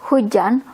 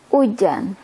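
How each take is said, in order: First: "hujan" with the initial h sounded; H pronounced. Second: "ujan" starting straight on the u, no h; H skipped. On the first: Teacher showing the full word for rain, H kept. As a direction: say "hujan" in full, breathing the h first. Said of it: "the H". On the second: Teacher showing the everyday word for rain, H dropped. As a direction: say "ujan" as hujan with the first sound gone. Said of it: "We skip the H". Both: Shown as a demonstration.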